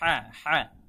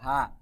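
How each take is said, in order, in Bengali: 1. একটি টান-টান h, গলার গভীরে চাপা। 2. একটি সাধারণ, হালকা h ধ্বনি। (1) "বলতে হবে হ্যাঁ হ্যাঁ" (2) "বাংলা হয়ের মতো হা"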